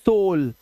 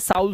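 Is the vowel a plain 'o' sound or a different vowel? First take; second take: plain o; different vowel. First: The vowel is a plain 'o' sound. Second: The vowel is not a plain 'o' sound. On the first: The speaker calls it right. "ओ यू का उच्चारण अब ओ हो जाएगा" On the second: The speaker calls it wrong. "नहीं पढ़ना है"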